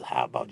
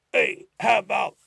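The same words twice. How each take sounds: First: "how about" low and short with a rising end; repeated phrase. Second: "how about" said high and loud with a falling end; demo phrase. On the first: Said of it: "就是如何". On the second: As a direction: land the phrase firmly. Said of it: "就是". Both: Shown as a demonstration.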